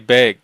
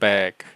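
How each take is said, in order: First: It is said with a Pacific Northwest accent. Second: It is said with a standard American accent.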